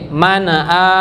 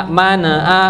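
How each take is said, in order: Both takes have the same delivery.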